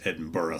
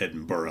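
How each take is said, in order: First: The name is said the Scottish way. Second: The same.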